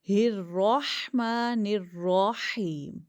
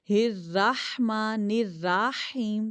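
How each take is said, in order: First: The R sounds are said heavy and full. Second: The R sounds are said thin and light. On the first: The speaker calls it right. "रॉ पे ज़बर है रॉ मोटा" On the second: The speaker calls it wrong. "अगर आप पढ़ोगे ना हिर राहमा निर राहीम तो गलत हो जाएगा"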